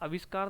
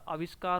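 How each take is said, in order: First: The word begins with a short a vowel. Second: The word begins with a long aa vowel. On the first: The speaker calls it wrong. "आविष्कार नहीं होता" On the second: The speaker calls it right. "आविष्कार में भी आपका आ आता है"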